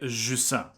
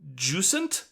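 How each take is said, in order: First: The word is said with a French pronunciation. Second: The word is said with an English pronunciation. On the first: "in French, the way I would pronounce it" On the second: "I would probably venture in English"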